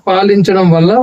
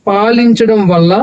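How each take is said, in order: The two takes are said the same way.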